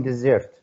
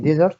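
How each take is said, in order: First: "desert" as the verb, de-SERT; stress on second syllable. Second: "desert" as the noun, DE-sert; stress on first syllable. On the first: Teacher contrasting verb with noun, "desert" stressed on second syllable. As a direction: lean on the end of "desert". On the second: Teacher checking noun against verb, "desert" stressed on first syllable. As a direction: lean on the start of "desert". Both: Shown as a demonstration. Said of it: "Noun and verb".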